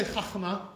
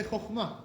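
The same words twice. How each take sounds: First: Chachma with open ah first, khakh-MAH; wrong vowel. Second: Chokhmah with rounded oh, khokh-MAH; correct kamatz o. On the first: Teacher showing what we don't say, chachma with ah. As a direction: chachma said raised and louder with an a. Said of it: "But we don't say chachma". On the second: Teacher showing what we say, chokhmah with oh. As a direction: say chokhmah with o in first syllable. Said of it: "We say chokhmah". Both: Shown as a demonstration.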